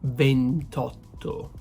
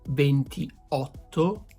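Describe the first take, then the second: First: The 'i' before 'otto' is dropped. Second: The 'i' before 'otto' is pronounced. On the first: The speaker calls it right. "but ventotto" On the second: The speaker calls it wrong. "It's not gonna be ventiotto"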